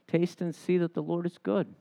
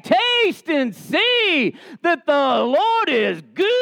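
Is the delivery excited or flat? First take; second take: flat; excited. First: It is said in a flat, unenthusiastic way. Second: It is said in an excited, joyful way. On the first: The speaker is indifferent to what is said. The speaker calls it wrong. "he is not saying it like this" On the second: The speaker is thrilled by what is said. The speaker calls it right. "he is going, whoo!"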